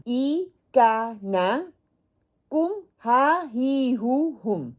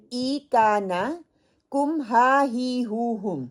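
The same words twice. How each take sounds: First: ای کا نا، کم ہا ہی ہو ہم drawn out syllable by syllable; slow recitation again. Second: Each pronoun ending spelled out slowly; slow, drawn-out drill chant for learners; slow recitation. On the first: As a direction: chant the six endings very slowly. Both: Shown as a demonstration. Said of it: "یہ چھ حرف ہیں جو آپ نے learn کرنے ہیں".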